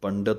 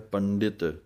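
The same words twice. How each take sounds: First: No i vowel follows the d sound. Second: A short i vowel follows the d sound. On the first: The speaker calls it wrong. "ਇਹਨੂੰ ਪੰਡਿਤ ਨਹੀਂ ਕਹਿ ਦੇਣਾ" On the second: The speaker calls it right. "ਡੱਡੇ ਦੇ ਸਿਹਾਰੀ ਬੋਲਣੀ ਹੈ"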